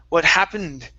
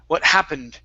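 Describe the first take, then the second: Both takes have the same delivery.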